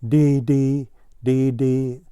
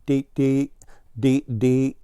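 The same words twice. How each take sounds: First: "dee, dee" said as two separate letter names; "dee, dee" as evenly spaced letters, called lightly; spelled out. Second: Blue Jay's name-call, lightly voiced; understated bird call, slightly raised; mild narrated shout. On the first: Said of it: "this time he spelled it". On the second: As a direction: call out "Dee, dee" without much force. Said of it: "shouting his name". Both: A narrator's reading.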